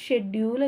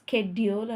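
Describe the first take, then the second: First: The word begins with a 'sh' sound. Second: The word begins with a 'sk' sound. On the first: This is how it was read in the past. "అప్పటికి చిన్నప్పుడు నేను చదువుకున్నప్పుడు షెడ్యూల్ అని చదివేవాళ్ళం" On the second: This is how it is read nowadays. "ఇప్పుడు స్కెడ్యూల్ అని చదువుతున్నాం"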